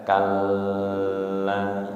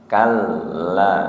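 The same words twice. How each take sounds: First: The double L is held long. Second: The double L is short, not held. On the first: The speaker calls it wrong. "tidak dibaca kalla" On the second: The speaker calls it right. "Kal itu hanya ditasydid tanpa ditahan"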